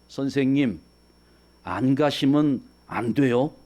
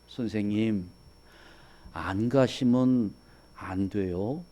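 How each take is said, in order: First: The voice sounds insistent and firmly demanding. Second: The voice sounds pleading and reluctant to let go. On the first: The teacher must leave. "반드시 가셔야 된다 하는 그런 의미" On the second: The teacher should stay. "가지 말라고 붙잡는 거잖아요"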